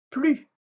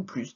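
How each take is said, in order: First: "plus" ending on the vowel, "plu"; "plus" with its S left mute; silent S. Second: "plus" ending in an audible S; sounded S. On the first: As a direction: say "plus" high, with no final S. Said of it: "tu entendras le S, des fois". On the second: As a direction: say "plus" as "pluss". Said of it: "tu entendras le S". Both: Shown as a demonstration.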